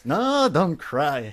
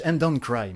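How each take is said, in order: First: "No, don't cry" drawn out very slowly; slow mock pleading. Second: Said in the usual way. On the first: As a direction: stretch every word of "No, don't cry" in teasing comfort.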